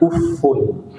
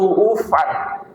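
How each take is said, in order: First: The word ends in a u vowel. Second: The word ends in a plain a vowel. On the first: "membacanya dengan dhammah" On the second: "dengan memfathahkan tanpa ada tanwinnya"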